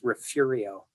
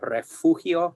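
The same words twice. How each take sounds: First: It is pronounced the way locals say it. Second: It is pronounced the Spanish way.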